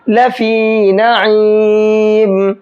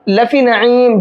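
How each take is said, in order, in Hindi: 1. 'fi' में स्वर लंबा खींचा जाता है। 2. 'fi' में स्वर छोटा झटके से बोला जाता है। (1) "एक अलिफ के बराबर खींचना है" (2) "जल्दी पढ़ देते हैं, खींचते नहीं है"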